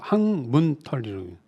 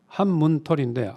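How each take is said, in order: First: The first syllable ends in an ng sound. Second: The first syllable ends in an n sound. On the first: The speaker calls it wrong. "발음을 잘못하면 좀 이상하게 하더라고요" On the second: The speaker calls it right.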